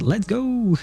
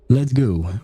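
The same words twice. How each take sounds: First: It is said loudly with excited energy. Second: It is said flatly with calm, low energy. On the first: The speaker calls it wrong. "I don't know why I wanted to read it like" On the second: The speaker calls it right. "He would never say it like this"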